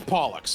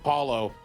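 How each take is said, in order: First: The name ends with a clear x sound. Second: The name ends without any x sound. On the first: The speaker calls it right. "I'm pretty sure you do pronounce the X" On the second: The speaker calls it wrong. "say the X is silent, so it's just like Paulo"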